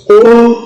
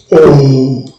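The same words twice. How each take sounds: First: O on a high Yoruba tone, pitch raised. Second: O on a low Yoruba tone. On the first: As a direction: lift O up high. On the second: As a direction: sink the pitch low on O. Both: Shown as a demonstration. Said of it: "Donc, pareil".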